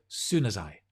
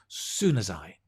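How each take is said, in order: The two takes are said the same way.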